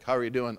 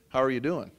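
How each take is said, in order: First: It is asked in a careless, dismissive way. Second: It is asked with sincere, caring interest.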